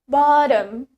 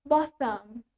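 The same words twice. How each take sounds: First: It is said in an American accent. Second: It is said in a British accent. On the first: "While in American English, we say it bottom" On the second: "In British English, it's bottom"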